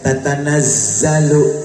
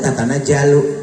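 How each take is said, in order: First: The middle consonant is a z sound. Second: The middle consonant is a j sound. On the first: The speaker calls it right. "zai itu kan bukan jim" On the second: The speaker calls it wrong. "Orang zai jadi jalu"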